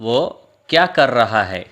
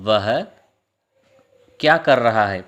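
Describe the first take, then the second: First: The first word is reduced to a short 'o'. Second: The first word is said fully as 'vah'.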